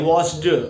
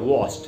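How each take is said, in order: First: The ending is pronounced as a d sound. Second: The ending is pronounced as a t sound. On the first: The speaker calls it wrong. "लेकिन अगर उसको ड बोले" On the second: The speaker calls it right. "तो डी से ट बनेगा वॉश्ड"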